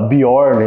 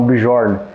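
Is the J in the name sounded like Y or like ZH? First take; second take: Y; ZH. First: The J is sounded like a Y. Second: The J is sounded like a ZH. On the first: The speaker calls it right. "esse J vai ter o som de I. Por isso que a gente fala Bjorn" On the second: The speaker calls it wrong. "não Bjorn"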